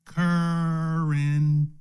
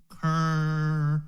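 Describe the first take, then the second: First: Currency stretched very slowly; drawn-out word. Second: Currency spoken slowly and deliberately. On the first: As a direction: draw the word currency out, slow and weighty. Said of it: "watch this now". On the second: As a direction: say Currency slow, leaning on the C. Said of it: "Say it slowly". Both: Shown as a demonstration.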